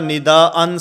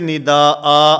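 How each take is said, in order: First: The word ends with an n sound. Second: The word ends with a long a vowel. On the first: The reading continues on. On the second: The reading stops here.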